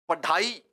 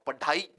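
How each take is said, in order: No difference in how they are said.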